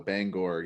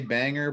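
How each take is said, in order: First: The second syllable has a full 'or' vowel. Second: The second syllable has a reduced 'er' vowel. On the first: The speaker calls it right. "there's an O in there for sure" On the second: The speaker calls it wrong. "people want to say banger"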